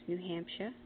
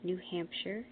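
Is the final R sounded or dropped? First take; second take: dropped; sounded. First: The final R is dropped. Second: The final R is sounded.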